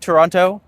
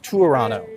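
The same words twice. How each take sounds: First: The second T is pronounced. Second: The second T is dropped. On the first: The speaker is not from the city. The speaker calls it wrong. "If you come here and you say Toronto, we know you're not from here" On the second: The speaker is from the city. The speaker calls it right. "no one in Toronto pronounces the second T"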